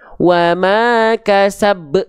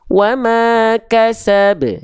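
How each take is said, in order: First: The final consonant's bounce is held back. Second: The final consonant's bounce is released freely. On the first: The speaker calls it wrong. "Maka jangan sampai dibaca gini" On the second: The speaker calls it right. "Tapi kita baca wa ma kasab. ... Pantulannya dilempar saja"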